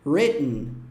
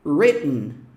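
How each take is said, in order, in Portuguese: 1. O T do meio é engolido na garganta. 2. O T do meio é engolido na garganta.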